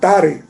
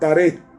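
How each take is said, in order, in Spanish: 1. El nombre se dice a la manera hebrea. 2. El nombre se dice a la manera española habitual.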